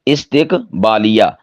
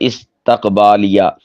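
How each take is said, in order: First: It starts with i and has i after t. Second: It starts with i and has a after t. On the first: The speaker calls it right. "ता के नीचे कसरा" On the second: The speaker calls it wrong. "ये लफ्ज़ इस्तेमाल कर देते हैं"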